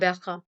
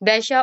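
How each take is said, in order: First: The middle consonant is a rasping kh sound. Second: The middle consonant is a soft sh sound.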